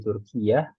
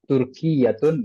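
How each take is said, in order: First: The word ends with a short '-ah' sound. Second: The word ends with the full '-atun' ending. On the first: The speaker calls it right. "Biasanya disukunkan ya, akhirnya atau di wakof" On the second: The speaker calls it wrong. "Kalau mau dibaca harokat akhirnya"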